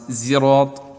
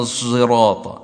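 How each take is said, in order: First: The first consonant is a pure z sound. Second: The first consonant blends emphatic s with z. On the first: "بزاي خالص" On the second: "خلط حرف بحرف بحيث يتولد منهما حرف آخر ليس بصاد ولا بزاي"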